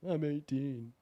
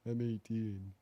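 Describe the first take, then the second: First: It is said in a higher-pitched voice. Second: It is said in a lower-pitched voice. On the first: The speaker calls it right. "I gotta go up in pitch a little bit" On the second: The speaker calls it wrong. "my regular voice is a bit deeper than that"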